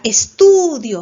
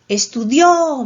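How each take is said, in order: First: The stress is on the middle syllable. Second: The stress is on the last syllable. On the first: I study. "¿Mayor fuerza dónde? En tú" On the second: He or she studied. "¿Mayor fuerza dónde? En dio"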